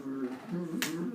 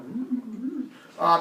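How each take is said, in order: First: Mock growl. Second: Weak growl back. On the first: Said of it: "his friends, like, just kept looking at me". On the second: Retold or imitated. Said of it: "And I'm like".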